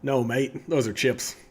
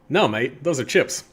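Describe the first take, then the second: First: It is spoken with a less Australian accent. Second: It is spoken with a somewhat Australian accent.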